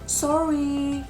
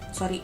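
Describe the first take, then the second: First: It sounds sincere and full of regret. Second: It sounds casual and not remorseful. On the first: The apology is truly meant. The speaker calls it right. "dia benar-benar kelihatan menyesal" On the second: The apology is not really meant. The speaker calls it wrong. "itu kan nggak banget gitu ya"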